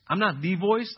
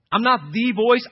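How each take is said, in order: First: Said in the usual way. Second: NOT in "I'm not the voice" punched louder and higher; emphatic repeat. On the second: Shown as a demonstration. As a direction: hammer the word not. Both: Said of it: "repeated louder".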